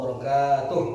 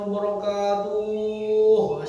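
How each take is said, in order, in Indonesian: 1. Suku kata ka dibaca panjang. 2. Suku kata terakhir tuh dibaca panjang. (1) "Yang betul itu panjangnya ka-nya" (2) "Salah itu"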